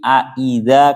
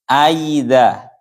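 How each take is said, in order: First: The second glottal catch is pronounced fully and clearly. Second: The second glottal catch is softened toward a y-sound. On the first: "secara jelas" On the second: "hamzah yang kedua dibaca tashil"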